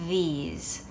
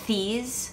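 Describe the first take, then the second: First: The th sounds like the one in the. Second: The th sounds like the one in bath. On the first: The speaker calls it right. "but it's these" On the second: The speaker calls it wrong. "If I said it with the same sound as bath and thing"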